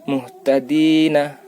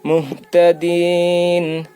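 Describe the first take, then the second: First: The word ends with a full vowel. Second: The word ends on a consonant. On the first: The reading continues without a stop. "Seharusnya kan" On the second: The reader stops at a verse mark.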